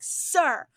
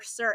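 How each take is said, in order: First: It is said at its loudest. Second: It is said louder than before.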